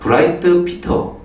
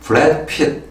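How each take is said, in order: First: It is said with a Chinese accent. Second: It is said with an American accent. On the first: "중국은" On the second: "미국식 본토 발음으로 하면은"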